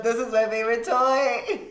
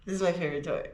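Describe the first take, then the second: First: High, giggling dog voice; laughing. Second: Said in the usual way. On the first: Pretend. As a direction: say it through a laugh.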